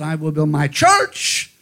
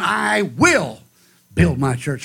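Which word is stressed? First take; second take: church; will. First: The stress is on "church". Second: The stress is on "will".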